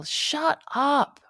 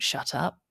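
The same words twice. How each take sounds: First: Yell. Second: Said in the usual way. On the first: A narrator's reading. Kenza and Marty yelling from their room, high yell. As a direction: call out sharply high, as if from another room. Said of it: "Kenza and Marty yell". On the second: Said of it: "but we don't shut up".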